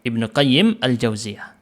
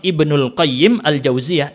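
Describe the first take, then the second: First: The first word ends in a plain vowel, no l. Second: An l sound links the first word to the second. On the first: The speaker calls it right. "Gitu ya cara bacanya" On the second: The speaker calls it wrong. "Yang salah bilang Ibnul Qayyim Al-Jauziyah, itu salah"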